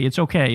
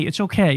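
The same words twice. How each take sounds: First: Lower soothing reassurance. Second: Calm them down gently; soothing reassurance. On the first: Comforting a timid critic, lower and soothing. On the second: Soothing a scared critic, reassuring. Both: Acted. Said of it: "don't be afraid of your own shadow".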